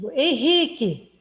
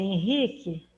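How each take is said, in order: First: The name is called in a stern, loaded tone. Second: The name is called in a plain, neutral tone. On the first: The caller is about to scold the person. "essa entonação que eu dou para a minha voz já passa até um outro significado" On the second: The caller just wants the person to look. "eu posso dizer"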